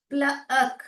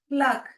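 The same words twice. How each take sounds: First: प्लक broken into pla, then ak; sounded out. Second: Said in the usual way. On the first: Shown as a demonstration. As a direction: split प्लक in two with a short gap. Teacher sounding out the word.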